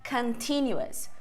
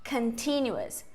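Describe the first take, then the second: No difference in how they are said.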